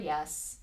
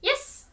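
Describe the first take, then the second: First: The word is said at a normal pitch. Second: The word is said at a high pitch. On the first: It is just ordinary talk. "without the intonation" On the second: It marks that a reward is coming. "a high pitched yes"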